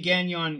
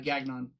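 First: The name is said with a French pronunciation. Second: The name is said with an English pronunciation. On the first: This is the original pronunciation. "you pronounce it as the French do" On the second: This is how the bearer says his own name. "he goes by Gagnon"

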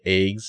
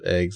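First: The vowel is said in a Canadian way. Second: The vowel is said in a standard American way.

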